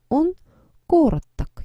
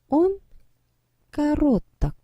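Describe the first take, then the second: First: The stress is on the first syllable. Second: The stress is on the second syllable. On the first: The speaker calls it right. "강세가 이도, 이동을 합니다" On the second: The speaker calls it wrong. "뭔가 발음하고 나니까 이상하죠?"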